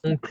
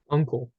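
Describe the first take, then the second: First: It is pronounced with a French nasal vowel. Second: It is pronounced with an English vowel. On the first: The speaker calls it right. "In French, it would be like" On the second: The speaker calls it wrong. "in English you would pronounce it kind of like that"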